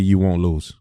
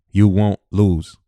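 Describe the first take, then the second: First: Said in the usual way. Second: Slow, louder, each word weighted; slow emphatic. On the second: Shown as a demonstration. Speaker driving the point home to the audience, slow and emphatic. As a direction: lean on You and stretch it out. Repeats line slower and louder.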